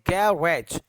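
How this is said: American accent, stress on the first syllable.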